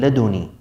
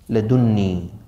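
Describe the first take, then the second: First: The n sound is single and short. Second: The n sound is doubled and held longer. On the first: "مخففة" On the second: "مثقلة"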